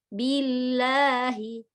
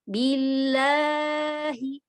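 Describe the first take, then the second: First: The long vowel is held for two beats. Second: The long vowel is stretched beyond two beats. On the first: The speaker calls it right. "Harus ya" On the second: The speaker calls it wrong. "sering juga memanjang lebih dari dua harokat"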